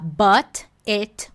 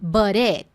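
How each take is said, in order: First: The t is said as a crisp, clear t. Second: The t becomes a quick r-like flap. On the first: "Não é essa pronúncia que você vai costumar encontrar em filme, série, no American Canadian English" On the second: "Surge até um sonzinho de R"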